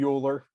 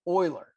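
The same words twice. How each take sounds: First: The name starts with a 'yoo' sound. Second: The name starts with an 'oy' sound. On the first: The speaker calls it wrong. "Please don't call him Euler" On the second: The speaker calls it right. "It's pronounced oil"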